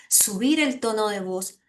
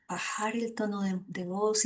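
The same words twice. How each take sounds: First: Lightly raised voice, fuller and lifted; voz que sube. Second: Softer, dropped voice; lowered voice. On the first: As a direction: lift the voice a little, as a playful demo. (subiendo un poco la voz) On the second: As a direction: bring the voice down softly, as a demo. (bajando la voz suavemente) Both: Shown as a demonstration. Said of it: "diversidad de tonalidad en nuestra voz".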